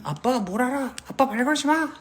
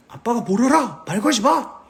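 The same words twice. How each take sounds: First: Shrill sulky daughter. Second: Higher, louder defiant yell; son yelling. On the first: Daughter shutting out her father, high sulky girl voice. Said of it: "딸들은". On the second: Son yelling at his dad to back off, loud and defiant. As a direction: shout it back like a rebellious son. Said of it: "아들이". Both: Pretend.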